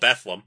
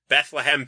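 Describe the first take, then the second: First: The name is said with only two syllables. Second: The name is said with three full syllables. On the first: "which 100% of the residents call Bethlehem" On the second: "We also have the town of Bethlehem"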